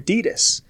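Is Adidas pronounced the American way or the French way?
American. Adidas is pronounced the American way.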